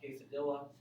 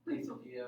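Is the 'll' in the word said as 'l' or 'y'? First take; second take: l; y. First: The double l is said as an 'l' sound. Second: The double l is said as a 'y' sound. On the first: The speaker calls it wrong. "calling something a" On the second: The speaker calls it right. "instead of a"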